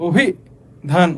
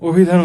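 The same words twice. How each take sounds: First: অভিধান slowly broken as "obhi... dhan"; split pronunciation. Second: অভিধান as one joined word, "obhidhan"; said together. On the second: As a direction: run অভিধান straight through with no pause. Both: Shown as a demonstration. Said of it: "আমরা কি একসাথে".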